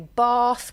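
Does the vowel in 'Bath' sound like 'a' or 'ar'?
ar. The vowel sounds like a long 'ar'. The speaker is from the Midlands. "with an R in the middle"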